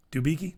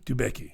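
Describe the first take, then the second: First: "Dubicki" with a long "ee" in the middle, questioning; alternative pronunciation. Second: "Dubecki" with a short "e", as doo-BECK-ee; low, soft "Dubecki", middle rhyming with deck; alternative pronunciation. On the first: Unsure of a dancer's surname, tries "Dubicki" as doo-BEE-kee. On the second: Settling on a dancer's surname, says "Dubecki" as doo-BECK-ee. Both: Shown as a demonstration.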